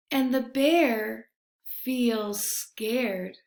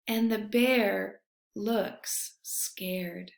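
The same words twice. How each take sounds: First: Said in the usual way. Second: Slow, soft breathless whisper; scared whisper. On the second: A narrator's reading. Narrator whispers that Bear looks frightened, slowly. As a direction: breathe it like you're frightened too.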